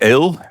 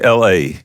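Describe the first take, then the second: First: It sounds like the English word for beer. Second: It sounds like the two letters L and A. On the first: "like the English beer" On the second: "they call me L A"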